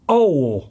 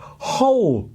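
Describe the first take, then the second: First: The word begins without an h sound. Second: The word begins with an h sound. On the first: "and not ole" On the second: "Note I said whole"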